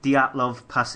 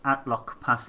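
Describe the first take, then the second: First: The name begins with a clear D sound. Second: The name begins without any D sound. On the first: The speaker calls it right. "It's called the Dyatlov Pass incident" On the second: The speaker calls it wrong. "not Atlok Pass"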